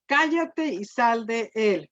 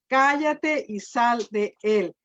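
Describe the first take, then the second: First: Slow, firm command with authority; Jesus silencing the demon with calm authority. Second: Slow, firm command, each word weighed; preacher repeating Jesus' rebuke of the demon, slow and firm; commanding Jesus. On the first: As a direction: order the demon out, slow and sure. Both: Retold or imitated. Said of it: "Fíjese con qué autoridad".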